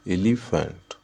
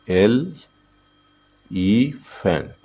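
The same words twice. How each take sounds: First: Said in the usual way. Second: "elephant" very slowly as एल, ई, फेंट; syllable by syllable. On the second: Shown as a demonstration. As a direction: draw "elephant" out in three separated beats. ("Elephant" को एल... ई... फेंट, तोड़कर) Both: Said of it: "elephant में कितने syllable है?".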